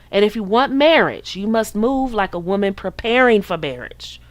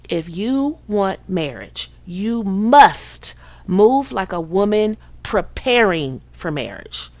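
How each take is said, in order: First: It is said at a normal pace. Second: It is said slowly.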